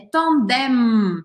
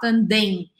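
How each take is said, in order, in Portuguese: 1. Termina com um som de M bem fechado. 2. Termina em vogal nasal, sem M. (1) "E eu formo a letra M no final" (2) "Eu não posso fazer, como em português, um som anasalado simplesmente. Eu não posso falar tandem"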